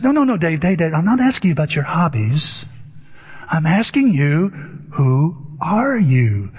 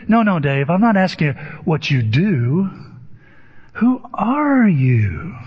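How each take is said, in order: First: Insistent therapist. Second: Lightly imitated insistence, slowing on the question; probing therapist. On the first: Retold or imitated. Therapist rejects Dave's hobbies answer, lightly imitated insistence. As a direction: cut him off, then drag out the question. Retold therapist pressing Dave again. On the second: Therapist corrects Dave's answer about his job, lightly imitated pressing.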